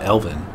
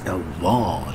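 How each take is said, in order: First: It is said plainly, ending like 'in'. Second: It is said in a posh way, ending like 'on'. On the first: The speaker calls it wrong. "it's not Elvin" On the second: The speaker calls it right. "pronounce it like you're a snooty person"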